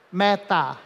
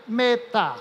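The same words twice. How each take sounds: First: Said in the usual way. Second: "Meta" pronounced mêta, closed vowel. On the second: Shown as a demonstration. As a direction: say "Meta" with a closed e, like the verb meter. ("Meta" com e fechado, como em meter) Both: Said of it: "Vamos pronunciar isso diferente".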